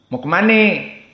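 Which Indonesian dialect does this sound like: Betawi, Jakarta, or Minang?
Betawi. It is said in a Betawi accent.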